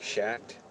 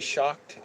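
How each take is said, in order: First: The vowel sounds like the 'a' in 'cat'. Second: The vowel sounds like the 'o' in 'hot'. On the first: The speaker calls it wrong. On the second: The speaker calls it right.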